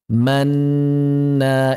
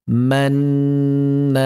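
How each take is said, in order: Both takes have the same delivery.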